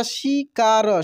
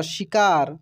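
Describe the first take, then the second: First: शिकार broken into shi, kaa, ra; syllable by syllable. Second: Said in the usual way. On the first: Shown as a demonstration. Teacher spelling for learners, शिकार syllable by syllable. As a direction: sound out each syllable of शिकार. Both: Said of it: "छोटी की मात्रा भी बोलकर".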